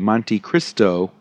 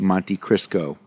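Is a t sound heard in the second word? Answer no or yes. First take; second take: yes; no. First: The second word is said with a t sound. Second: The second word is said without a t sound. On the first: The speaker calls it right. "the Monte Cristo with a T" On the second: The speaker calls it wrong. "quite a lot of people, because it's deep fried, call it"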